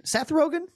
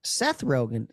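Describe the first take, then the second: First: High, rising disbelief; surprised question. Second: Said in the usual way. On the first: Real, not acted. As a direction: ask it back in disbelief. Echoes the name in disbelief.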